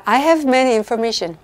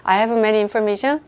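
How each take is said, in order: First: "I have many information" read very slowly and evenly; slow, clear quiz reading. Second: "I have many information" read slowly again, ending on a rise; slow reread with a rising end. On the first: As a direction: read the quiz sentence slowly so students can judge it. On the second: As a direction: repeat the quiz sentence slowly as if it sounds fine. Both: Shown as a demonstration. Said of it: "저 읽어드리면 또 다 괜찮게 들리죠?".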